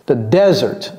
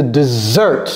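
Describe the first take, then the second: First: "desert" as DEZ-ert, pitched low; weight on the start of "desert"; first-syllable stress. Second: "dessert" as dih-ZERT; low "dessert", weight on the last syllable; second-syllable stress. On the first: Teacher confirms accent on first syllable, careful model. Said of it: "l'accent est mis sur la première syllabe". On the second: Teacher confirms stress on second syllable, careful model. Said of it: "Le stress est mis sur la deuxième syllabe". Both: Shown as a demonstration.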